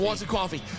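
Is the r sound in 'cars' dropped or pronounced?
dropped. The r in 'cars' is dropped, local accent. "friends that call it Cause and Coffee"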